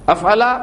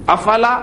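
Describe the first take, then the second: The two takes are said the same way.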